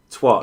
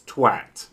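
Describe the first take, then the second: First: "Twat" rhyming with "hot", high and loud; mock the American "Twat" with an o vowel; mocking American pronunciation. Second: Said in the usual way. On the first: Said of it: "the way Americans say twat". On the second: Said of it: "you say at. So it's twat".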